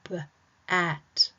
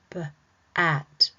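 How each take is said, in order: No difference in how they are said.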